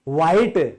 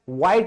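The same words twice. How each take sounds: First: The word is said with an audible h sound. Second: The word is said without any h sound. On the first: The speaker calls it wrong. "एच बोलते हो लेकिन गलत है" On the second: The speaker calls it right. "व्हाइट बोला करो"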